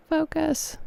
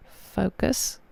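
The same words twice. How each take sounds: First: Much higher, pleading with the camera; high pleading plea; pleading squeak. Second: Said in the usual way. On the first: Real, not acted. Begging camera to focus. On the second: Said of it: "It's not gonna f".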